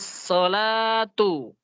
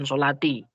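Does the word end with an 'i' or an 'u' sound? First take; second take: u; i. First: The word ends with an 'u' vowel. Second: The word ends with an 'i' vowel. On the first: The speaker calls it right. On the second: The speaker calls it wrong. "bukan sholati"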